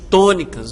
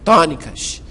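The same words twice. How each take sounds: First: The first vowel is closed and more nasal. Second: The first vowel is open and less nasal. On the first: This is how it is said in Brazil. "um pouco mais nasalizado" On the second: This is how it is said in Portugal. "lá eles falam vogais tônicas"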